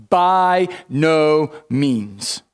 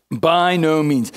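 First: Very slow, every word set apart; emphatic no. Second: Said in the usual way. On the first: Retold or imitated. Preacher reading Paul's answer, slow and weighty. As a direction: draw out each word as a final refusal. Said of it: "He says". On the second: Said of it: "think of the most emphatic way".

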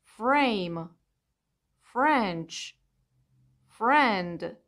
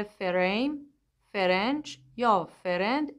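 First: فریم said as freym together; فرند said as frend, f and r joined; correct cluster. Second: فریم said as fe-reym; فرند split as fe-rend; wrong vowel inserted. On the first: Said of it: "پس تلفظ کلمه هایی مثل". (فریم و فرند درست) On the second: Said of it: "اشتباهه". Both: Shown as a demonstration.

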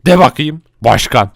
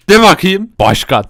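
First: Said in the usual way. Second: The same words pitched clearly higher; a higher go at the title; higher repeat. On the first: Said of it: "bana başkan diyeceksiniz". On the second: Shown as a demonstration. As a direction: ask again higher up. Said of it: "Sen de de".

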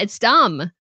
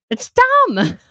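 First: Said in the usual way. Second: Much higher, louder, fed-up squeal on dumb; retold frustration at a YouTuber, high and loud; exasperated outburst. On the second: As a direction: burst out in disbelief at the rumor. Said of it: "I just get frustrated".

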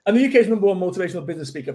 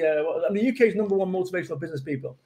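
First: Fast, practised boast; rattled off fast. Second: Said in the usual way. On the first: Shown as a demonstration. Speaker retrying his tongue-twister title at speed. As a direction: rattle the whole title off quickly. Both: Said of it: "Easy for me to say".

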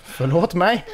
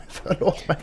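First: Said in the usual way. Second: Unvoiced whispered sorry; a sheepish whispered sorry; whispered apology. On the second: Real, not acted. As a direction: breathe the apology.

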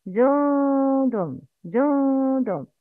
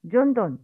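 First: جند slow, noon concealed; correct pronunciation. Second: جند with a clear noon; wrong pronunciation. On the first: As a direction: draw out جند with the noon hidden. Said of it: "Please repeat after me". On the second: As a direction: show the mistake, noon said openly. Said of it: "The wrong is". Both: Shown as a demonstration.

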